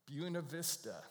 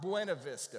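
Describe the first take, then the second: First: The name is said the local way. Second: The name is said the outsider's way. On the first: The speaker is from the area. The speaker calls it right. "there's a community called Buena Vista" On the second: The speaker is not from the area. The speaker calls it wrong. "not Buena Vista"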